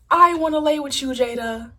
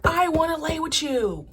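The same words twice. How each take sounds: First: Louder, higher, desperate cry; hammed-up lovesick reality-show shout; Red from Bad Girls Club. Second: Slow, higher, pleading croon; drawn-out needy plea, pitched up; hammed-up lovesick reality-show plea; Red from Bad Girls Club. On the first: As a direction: belt the plea out higher and louder. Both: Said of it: "that sound from Bad Girls Club".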